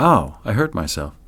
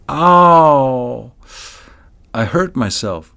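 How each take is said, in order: First: It is said plainly without drawing sounds out. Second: A sound or word is drawn out.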